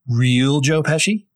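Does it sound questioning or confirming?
questioning. It sounds like a questioning check.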